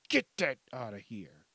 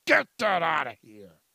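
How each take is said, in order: First: Said in the usual way. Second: Much louder second take, pushed hard; loud dismissal. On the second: Shown as a demonstration. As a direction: shove it away with a loud bark.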